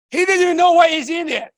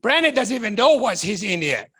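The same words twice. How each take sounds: First: Shouted louder and higher on the repeat; emphatic shout. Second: Said in the usual way. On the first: Real, not acted. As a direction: drive the point home. Repeated line, second one punched.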